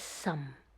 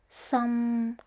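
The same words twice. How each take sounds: First: It is said in the fourth tone. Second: It is said in the third tone. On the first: It is a surname. "The fourth tone is some" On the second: It means leak. "The third tone is some"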